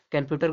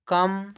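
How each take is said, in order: First: Said in the usual way. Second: computer broken into कम, प्यू, टर with long pauses; split into syllables. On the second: Shown as a demonstration. Teacher shows learners three sounds in computer, syllable by syllable. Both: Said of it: "देखो कम हो गया ये".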